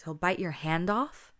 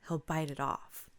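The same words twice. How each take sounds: First: Drawn-out querying rise on "hand off?"; questioning echo. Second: Said in the usual way. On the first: A narrator's reading. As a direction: BITE YOUR HAND OFF slow and louder, rising into a question. Teacher questions, kids confirm it.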